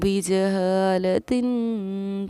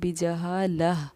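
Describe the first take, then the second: First: The word ends with a -tin sound. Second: The word ends with an h sound. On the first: The reading continues without stopping. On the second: The reading stops on this word.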